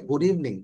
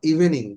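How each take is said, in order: First: ইভিনিং as eev-ning, two syllables; no vowel between v and n in ইভিনিং; ইভিনিং with the middle syllable dropped; correct evening. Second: ইভিনিং as ee-ve-ning, three syllables; ইভিনিং with a vowel between v and n; mispronounced evening. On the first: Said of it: "প্রনাউন্সিয়েশনটা হবে". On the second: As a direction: sound the middle vowel in ইভিনিং. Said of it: "ইভিনিং না, উচ্চারণটা হবে". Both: Shown as a demonstration.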